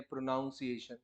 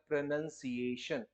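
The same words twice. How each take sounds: First: प्रोनाउंसिएशन said with "nown" as a wrong example; the mistaken प्रोनाउंसिएशन, "pro-NOWN-see-ay-shun"; wrong pronunciation. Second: प्रोनंसिएशन with short "nun" not "nown"; correct pronunciation. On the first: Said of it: "प्रोनाउंसिएशन नहीं होता". (गलत उच्चारण प्रोनाउंसिएशन) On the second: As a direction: say प्रोनंसिएशन as "pro-NUN-see-ay-shun". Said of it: "वो होता है प्रोनंसिएशन". (सही उच्चारण प्रोनंसिएशन) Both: Shown as a demonstration.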